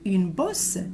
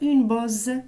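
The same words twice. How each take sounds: First: The middle consonant sounds like an s. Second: The middle consonant sounds like a z. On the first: The speaker calls it right. "Il faut dire une bosse" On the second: The speaker calls it wrong. "On ne peut pas dire une bosse si jamais j'ai un seul S"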